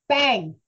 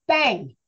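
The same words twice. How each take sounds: No difference in how they are said.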